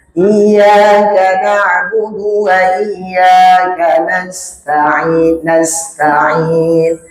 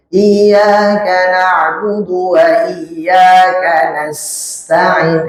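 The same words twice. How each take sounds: First: "nasta'in" with a clear hissing s; hissed sin. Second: "nasta'in" with an overdone hiss; sin too strong. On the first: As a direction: let the s in "nasta'in" whistle lightly. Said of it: "ada sisnya itu". (huruf sin pada "nasta'in" berdesis jelas) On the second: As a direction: push the s in "nasta'in" too hard, as a wrong example. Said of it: "Jangan terlalu kuat juga". (desis sin pada "nasta'in" terlalu kuat) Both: Shown as a demonstration.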